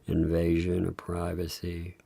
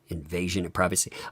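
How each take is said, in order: First: It is read flat and dull, imitating him. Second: It is read lively, with extra energy.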